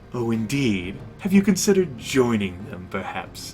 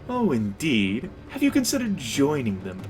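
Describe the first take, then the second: First: It is said in a mischievous, sarcastic tone. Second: It is said in a lighthearted tone.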